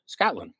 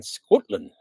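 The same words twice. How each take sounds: First: Said in the usual way. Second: "Scotland" with the first vowel rounded toward "Scootland"; playful Scottish pronunciation. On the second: Pretend. Guest names the listener's country, playful Scottish pronunciation. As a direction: say "Scotland" with a mock-Scots short "oo". Plays with the place name.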